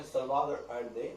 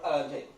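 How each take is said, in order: First: Allende with the double l softened towards a y; local pronunciation of Allende. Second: Allende with a plain l sound; spelling pronunciation of Allende. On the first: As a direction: say "Allende" as those people pronounce it, with a y-like glide. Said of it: "those people they pronounce that". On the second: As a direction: say "Allende" as it is written, with an l. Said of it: "they pronounce, but Allende". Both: Shown as a demonstration.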